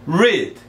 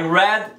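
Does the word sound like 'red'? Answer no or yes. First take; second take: no; yes. First: The word does not sound like 'red'. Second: The word sounds exactly like 'red'. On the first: It is the present tense, to read. "A primeira é read" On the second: It is the past tense, read before. "no passado, você só vai mudar a pronúncia"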